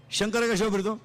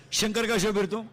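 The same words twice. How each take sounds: The two takes are said the same way.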